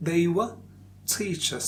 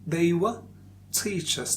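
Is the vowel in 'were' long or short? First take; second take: short; short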